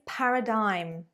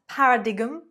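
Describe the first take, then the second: First: Some written letters are left silent. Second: The letters are sounded as they are written. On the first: The speaker calls it right. "It is paradigm" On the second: The speaker calls it wrong. "It is not paradigm"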